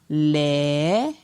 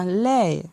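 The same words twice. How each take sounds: First: The syllable is said on a rising tone. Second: The syllable is said on a falling tone. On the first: "Ton montant" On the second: "un ton descendant"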